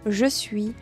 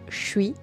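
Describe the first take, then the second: First: Each sound is pronounced in full. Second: The words are shortened and run together. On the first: "Au lieu de dire" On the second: "c'est même prononcé comme ça"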